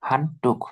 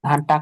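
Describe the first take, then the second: First: The second syllable has an 'oo' vowel. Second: The second syllable has an 'ah' vowel. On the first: The speaker calls it right. "টুক" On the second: The speaker calls it wrong. "হান টাক না"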